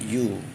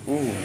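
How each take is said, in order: First: It starts with a 'y' consonant sound. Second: It starts with a plain vowel sound. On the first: The speaker calls it right. "Bacaannya huruf konsonan" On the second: The speaker calls it wrong. "bukan U"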